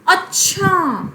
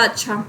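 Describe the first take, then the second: First: It is said with a surprised tone. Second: It is said short and plain.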